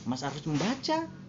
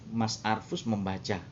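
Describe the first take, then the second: First: It is said with the tune of a question. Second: It is said with the tune of a statement. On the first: It asks whether someone is reading. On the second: It reports that someone is reading.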